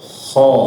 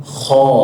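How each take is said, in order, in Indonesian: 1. Bunyi kho itu tebal dan berat. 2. Bunyi kho itu tebal dan berat.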